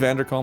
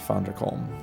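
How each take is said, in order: First: The name begins with a V sound. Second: The name begins with an F sound. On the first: "Would it be Vanderkalm" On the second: "or would it be Fonderkalm? I think um, probably Fonderkalm"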